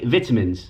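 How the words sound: It is said in a British accent. "over here we say vitamins"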